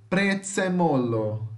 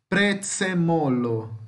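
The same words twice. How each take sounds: No difference in how they are said.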